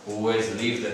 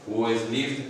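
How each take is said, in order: Both takes have the same delivery.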